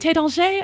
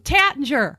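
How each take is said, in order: First: The name is pronounced the French way. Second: The name is pronounced the American way. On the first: "And this was one of those too" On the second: "I'm like, oh"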